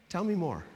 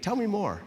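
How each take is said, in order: First: Said in the usual way. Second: Slightly higher, more emphatic invitation; like you mean it. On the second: Shown as a demonstration. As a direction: prompt them as if you really want to hear it. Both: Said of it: "Say it like you mean it".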